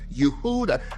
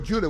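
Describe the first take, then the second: First: The name begins with a Y sound. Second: The name begins with a J sound. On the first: The speaker calls it right. "We say" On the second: The speaker calls it wrong. "we don't say"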